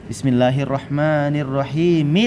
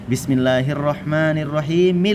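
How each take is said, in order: Both takes have the same delivery.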